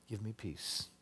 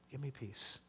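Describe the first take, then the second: First: Soft, falling give me peace; hushed plea. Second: Even softer repeat with me stressed; almost whisper the plea again. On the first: Pastor voicing David at bedtime, softly pleading. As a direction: breathe it as a quiet plea. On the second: Pastor voicing David at bedtime, very softly pleading. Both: Retold or imitated. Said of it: "And he says".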